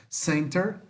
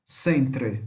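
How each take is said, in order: First: "Center" ending in -ter, tune rising; American -ter ending. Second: "centre" ending in "tre", lower and falling; British-spelling -tre ending. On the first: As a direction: say "Center" with the r last. ("Center" à americana, terminando em "ter") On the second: ("centre" terminando em "tre", mais grave) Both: Shown as a demonstration. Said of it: "Mesma coisa".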